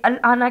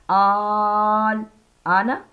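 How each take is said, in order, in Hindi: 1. पहला स्वर छोटा और जल्दी से बोला जाता है। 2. पहला स्वर खींचकर लंबा बोला जाता है। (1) "इसे अल आना कह के भागना नहीं है" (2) "बल्कि आल आना ऐसे पढ़ना है"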